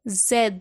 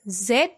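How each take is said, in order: First: The letter name is softer, stressed and longer. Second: The letter name is short with a hard ending. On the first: This is the French name of the letter. "A little softer and with just stress. It's a little bit longer" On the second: This is the English name of the letter. "English Z with D sound"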